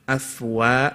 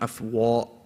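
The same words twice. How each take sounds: First: The 'wa' vowel is said with spread, smiling lips. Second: The 'wa' vowel is said with rounded lips. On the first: The speaker calls it right. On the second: The speaker calls it wrong. "and not"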